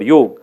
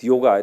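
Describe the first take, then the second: First: The word ends with a consonant, no final vowel. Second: The word ends with a final vowel sound. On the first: The speaker calls it right. "it is the real word yog" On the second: The speaker calls it wrong. "I do not pronounce it is yoga"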